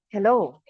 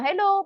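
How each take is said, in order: First: The voice is fuller and deeper, from the belly. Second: The voice is thin, high and shrill. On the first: The speaker calls it right. "nagbabago yung tono ng boses kasi bakit, nakukuha na siya sa tiyan" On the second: The speaker calls it wrong. "parang medyo matinis kasi dito siya nanggagaling"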